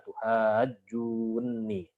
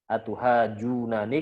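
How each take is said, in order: First: The two n sounds merge into one doubled n. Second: The two n sounds are said separately. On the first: This is how it is recited. "langsung diidghamkan menjadi" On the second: This is the underlying original form.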